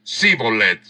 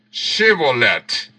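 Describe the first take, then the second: First: "Sibolet" said with a plain s, no sh; the Ephraimite's wrong "Sibolet" with s. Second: "Shibolet" said with a clear sh sound; slow, careful "Shibolet" with sh. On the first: Preacher showing the failed password, "Sibolet" with s. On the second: Preacher demonstrating the password, sounding "Shibolet". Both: Shown as a demonstration. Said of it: "no podían pronunciar correctamente".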